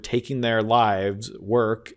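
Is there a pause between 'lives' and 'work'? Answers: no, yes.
yes. It is read slowly with a pause after 'lives'. It sounds as if people were taking their own lives. The speaker calls it wrong.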